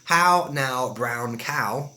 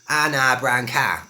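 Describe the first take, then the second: First: It is said in a received pronunciation accent. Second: It is said in a Cockney accent.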